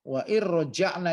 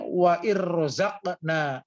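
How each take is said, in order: First: The middle consonant is a j sound. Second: The middle consonant is a z sound. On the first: The speaker calls it right. "seharusnya wa irroja'na" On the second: The speaker calls it wrong. "dia membacanya wa irroza'na"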